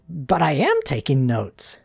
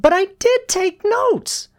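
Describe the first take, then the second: First: Mildly defensive pupil; defensive reply. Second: Very high, loud schoolgirl protest; shouted protest. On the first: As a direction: protest with a touch of defensiveness. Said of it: "defensively replied". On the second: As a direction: cry out insistently in a girl's voice. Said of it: "Susie shouted". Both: A narrator's reading.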